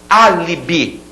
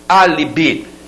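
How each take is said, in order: The two takes are said the same way.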